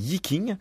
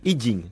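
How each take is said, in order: First: The second syllable starts with a K sound. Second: The second syllable starts with a J sound. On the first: This is the habitual Western form from southern China. The speaker calls it wrong. "je sais que je prononce mal, je dis Yiking" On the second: This is the standard Chinese form. The speaker calls it right. "vous pouvez l'appeler de manière beaucoup plus juste"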